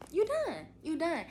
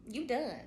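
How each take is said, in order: First: Much higher and louder, triumphant; gleeful you done. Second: Said in the usual way. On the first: Real, not acted. Telling new moms the hard part is over, triumphantly. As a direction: cheer it like the finish line.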